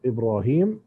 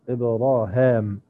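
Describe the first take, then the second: First: The vowel after the H is a long I. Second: The vowel after the H is a long A. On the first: "مثل الجمهور" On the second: "بفتح الهاء وإبدال الياء بالألف"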